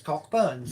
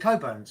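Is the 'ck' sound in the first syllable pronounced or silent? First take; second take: pronounced; silent. First: The 'ck' sound is said, like Cockburns. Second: The 'ck' sound is dropped, like Coburns. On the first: It is read as it looks on the page. "I call it Cockburns because it says Cockburns" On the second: It is said the usual way others say it. "everyone calls it Coburns"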